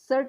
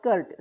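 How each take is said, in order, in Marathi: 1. हा शब्द S आवाजाने सुरू होतो. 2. हा शब्द K आवाजाने सुरू होतो. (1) "सर्ट सीई R T not कर्ट" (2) "sorry सर्ट सीई R T not कर्ट"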